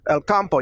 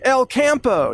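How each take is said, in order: First: The name is said in a Spanish pronunciation. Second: The name is said in an American English pronunciation. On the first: The speaker calls it right. "It just means the country in Spanish, but El Campo" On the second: The speaker calls it wrong. "but Americans say El Campo, you know, it kind of butchers it"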